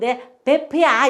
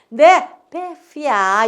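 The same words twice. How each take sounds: First: The consonant is a plain p sound. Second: The consonant is an f sound. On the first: The speaker calls it wrong. "이러지 마시고" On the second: The speaker calls it right. "이렇게 말씀하셔야 돼요"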